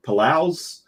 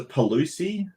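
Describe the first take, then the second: First: Palouse in two syllables, no ee ending, questioning; unsure pronunciation. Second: Palusi said as puh-LOO-see, questioning; unsure pronunciation. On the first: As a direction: try Palouse without the final ee, higher. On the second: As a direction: try Palusi in three syllables, ending in ee. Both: Shown as a demonstration. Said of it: "don't know how to pronounce that".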